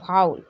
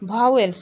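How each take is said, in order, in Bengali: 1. শব্দটি vow-ul এর মতো করে বলা হয়। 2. শব্দটি vah-wel এর মতো করে বলা হয়।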